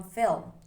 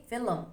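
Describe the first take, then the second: First: Film in one syllable, L and M together; standard film. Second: Film said as filum, two syllables; film with an added vowel. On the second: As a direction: break film into fi-lum. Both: Shown as a demonstration. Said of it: "from film".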